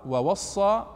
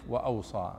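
First: "ووصى" as wa-was-saa, doubled s, rising; written with waw. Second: "وأوصى" as wa-aw-saa, low and falling; written with alif. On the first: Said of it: "كتبوا بعضها بالواو". («ووصى» بالواو وصاد مشددة) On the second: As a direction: say "وأوصى" softly with aw, single s. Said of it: "وبعضها بالألف". («وأوصى» بالألف وصاد مخففة) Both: Shown as a demonstration.

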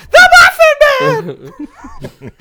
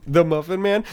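First: Very high, slow, loud squeaky scream; gingerbread man voice. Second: Squeaky half-sobbing cookie voice; gingerbread man voice. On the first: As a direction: shriek it out through laughter. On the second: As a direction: whimper it like a frightened cookie. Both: Retold or imitated. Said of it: "he sounds more like the gingerbread man".

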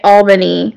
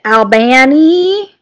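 First: Said in the usual way. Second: Albany said as al-BAN-ee; local pronunciation. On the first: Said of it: "say it Albany, like me". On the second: Shown as a demonstration. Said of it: "people here that say it Albany".

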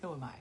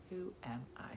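First: Said in the usual way. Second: Unvoiced whisper to herself; whispered self-mocking aside. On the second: Real, not acted. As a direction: breathe it out, no voice.

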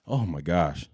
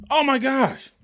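First: Low, softer, weary groan of words; weary sigh. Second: High, exasperated outburst. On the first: To listeners about repeat debates, low and weary. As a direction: let it sink, worn out. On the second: To sports fans about debate shows, high exasperation. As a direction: throw it up high in disbelief. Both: Real, not acted.

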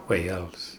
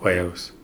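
First: Wales said softly in a Welsh accent, drawn out. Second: Said in the usual way. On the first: Shown as a demonstration. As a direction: give Wales a Welsh lilt. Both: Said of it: "say Wales with a more Welsh accent".

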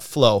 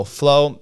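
First: Said in the usual way. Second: Flow punched higher and louder; stress on Flow. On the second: Real, not acted. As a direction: hit the word Flow hard, annoyed. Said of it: "complaining about Flow".

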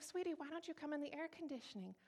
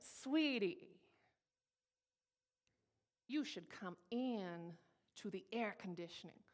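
First: High, soft, sweet invitation; lilting Southern church-lady invitation, kept soft; Southern pastor's wife. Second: Drawn-out, pointed Southern-lady sweetness; sugary Southern order with a hard edge; nicely cursing out. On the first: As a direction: coax gently in a raised, ladylike Southern voice. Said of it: "Southern pastor's wife". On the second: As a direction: curse them out politely, stretching the words. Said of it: "nicely cursed out by a Southern lady". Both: Retold or imitated.

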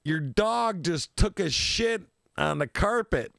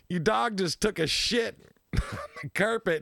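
First: Put-on slow, drawn-out telling-off from the girlfriend; mock girlfriend complaint. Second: Laughing retelling. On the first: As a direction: spell out the complaint slowly, half-mocking. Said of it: "and she's like". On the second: Retold or imitated. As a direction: quote breaks into a laugh midway. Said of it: "You know".

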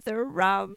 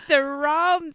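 First: Said in the usual way. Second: Drawn-out broad Australian vowels on "the rum"; broad Australian accent. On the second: Shown as a demonstration. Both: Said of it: "I start off going like this".

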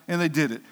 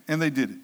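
Both takes have the same delivery.

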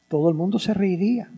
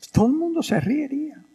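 First: Said in the usual way. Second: Much higher, quicker restatement; emphatic repeat. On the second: Shown as a demonstration. Priest stressing to listeners, higher and emphatic. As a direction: lift it to drive the point home.

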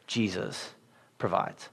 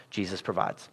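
First: Hushed refrain. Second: Quiet refrain. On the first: Refrain repeated, slower, quieter. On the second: Soft sermon refrain, repeated. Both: Acted.

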